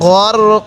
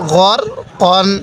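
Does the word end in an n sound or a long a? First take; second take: long a; n sound. First: The word ends with a lengthened a vowel. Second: The word ends with an n sound. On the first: The reciter stops at this word. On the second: The recitation continues without stopping.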